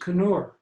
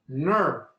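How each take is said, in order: First: The name starts with a K sound. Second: The name starts without a K sound. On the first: The speaker calls it right. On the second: The speaker calls it wrong.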